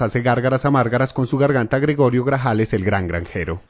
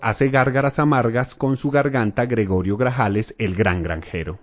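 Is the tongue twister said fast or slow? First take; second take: fast; slow. First: It is said quickly and forcefully. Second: It is said slowly and gently.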